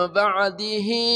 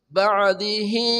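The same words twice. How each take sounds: No difference in how they are said.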